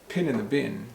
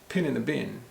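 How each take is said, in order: No difference in how they are said.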